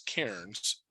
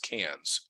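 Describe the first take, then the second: First: The name is said in a non-Australian way. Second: The name is said in an Australian way. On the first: "what I always thought was" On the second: "which the Australians pronounce as"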